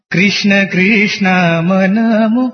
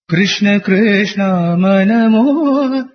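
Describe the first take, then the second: First: Sung, melodic phrase with wrongly voweled "Krishna"; sung wrong version. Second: Sung, melodic phrase with short-voweled "Krishna", held ending; sung corrected version. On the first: Singer showing the mistaken way, sung. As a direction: sing "Krishna" with an "ee". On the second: Singer showing the corrected way, sung. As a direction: sing "Krishna" correctly, stretch "manamo". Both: Shown as a demonstration.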